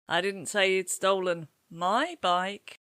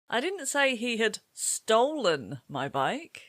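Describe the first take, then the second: First: The word my carries the main stress. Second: The word stolen carries the main stress. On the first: He stole a bike belonging to someone else. "He hasn't stolen my bike, has he?" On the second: He may have taken it some other way, like borrowing. "Perhaps he borrowed it and he's going to bring it back later"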